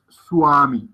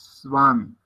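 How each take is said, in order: First: The second sound is a rounded u-like w. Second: The second sound is a soft v-like sound. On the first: The speaker calls it wrong. "no es una U, no es swami" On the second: The speaker calls it right. "un sonido suave"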